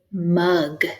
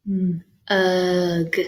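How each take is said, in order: First: Said in the usual way. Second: Mm held alone, then a stretched ugh; said slow. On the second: Shown as a demonstration. Teacher helping find the middle sound, said slow. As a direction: stretch out Mm, ugh in two parts. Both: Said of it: "say it slow".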